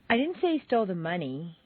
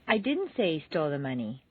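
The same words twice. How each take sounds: First: The stress is on the word money. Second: The stress is on the word didn't.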